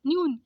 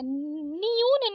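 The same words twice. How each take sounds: First: न्यून as one syllable, nyoon; short joined ny in न्यून; correct half न. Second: न्यून drawn out as ni-yoon; wrong split नि. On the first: Teacher correcting it, न्यून as nyoon. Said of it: "न्यून आधा ना". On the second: Teacher showing the mistake, न्यून as niyoon. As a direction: stretch न्यून into two syllables. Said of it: "न्यून नहीं होता है". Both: Shown as a demonstration.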